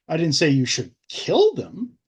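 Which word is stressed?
kill. The word 'kill' is stressed.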